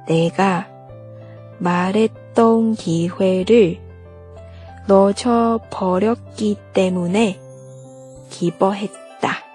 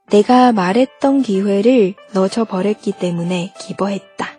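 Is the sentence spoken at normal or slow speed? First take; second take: slow; normal. First: The sentence is spoken slowly. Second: The sentence is spoken at normal speed. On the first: "我们用慢速再来一遍。" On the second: "正常语速。"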